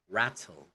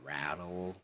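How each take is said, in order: First: The t is a clear t sound. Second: The t is a soft flapped d sound. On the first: "in British, not Cockney, they pronounce it as" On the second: "so in American again, it's pronounced as"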